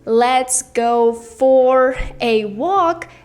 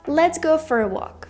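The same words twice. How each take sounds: First: The word 'for' is said in full. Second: The word 'for' is reduced and weak. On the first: "Instead of saying" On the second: "try to say for"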